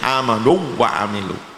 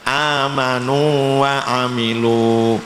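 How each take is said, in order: First: The long vowel is merged into a doubled w. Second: The long vowel is held, not merged into w. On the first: The speaker calls it wrong. "tidak boleh" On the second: The speaker calls it right. "ini tidak boleh diidghamkan, tetap dibaca panjang"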